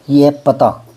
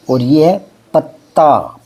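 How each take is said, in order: First: पता with a light single t; short a in पता. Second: पत्ता with a held double t, slow; doubled t. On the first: Teacher contrasting पता, plain t. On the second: Teacher drawing out पत्ता for the class. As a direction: lean on the tt in पत्ता. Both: Shown as a demonstration.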